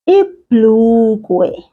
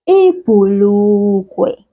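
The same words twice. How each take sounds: First: No vowel is heard after the bh. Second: A u vowel is heard after the bh.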